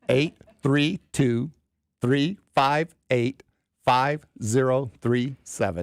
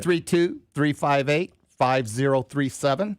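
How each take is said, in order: First: It is said slowly. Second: It is said at normal speed.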